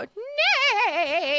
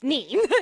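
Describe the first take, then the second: First: The name is said with an 'ay' vowel. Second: The name is said with an 'ee' vowel. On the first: The speaker calls it wrong. "mispronounce Nee as Nay" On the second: The speaker calls it right. "it is pronounced Nee"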